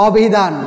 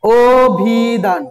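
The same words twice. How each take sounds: First: অভিধান drawn out with an open "aw" start; wrong vowel. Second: অভিধান drawn out as "oo-bhii-dhaan", closed o first; correct pronunciation. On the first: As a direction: say অভিধান as aw-bhi-dhaan, as spelt. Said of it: "নাকি আমরা বলি". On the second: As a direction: say অভিধান slowly with a long initial o. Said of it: "নিজে উচ্চারণ করো তো". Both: Shown as a demonstration.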